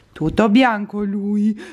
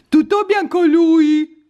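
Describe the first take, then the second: First: Said in the usual way. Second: High, loud, slow coo at the cat. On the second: Real, not acted. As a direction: squeal it to the cat. Higher louder repeat. (vocina acuta e squillante)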